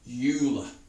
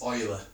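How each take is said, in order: First: The name begins with a 'you' sound. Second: The name begins with an 'oy' sound. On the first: The speaker calls it wrong. "it looks like Euler" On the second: The speaker calls it right. "We pronounce it oil rather than Yule"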